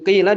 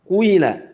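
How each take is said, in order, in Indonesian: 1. Vokal pertama adalah bunyi i biasa. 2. Vokal pertama diwarnai bunyi u.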